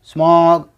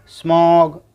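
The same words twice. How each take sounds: The two takes are said the same way.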